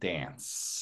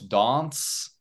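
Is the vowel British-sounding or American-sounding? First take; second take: American; British. First: It is said with an American accent. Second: It is said with a British accent.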